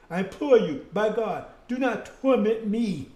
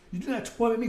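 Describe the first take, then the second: First: Slow, pleading plea, a touch louder; frightened demon imploring slowly; begging demon. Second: Fast re-reading of the plea; plain quick repeat of do not torment me; quick reread. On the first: Acted. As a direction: beg for mercy, drawing out torment. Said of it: "he started begging". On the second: Shown as a demonstration. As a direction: rattle it off again quickly. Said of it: "You better read it again".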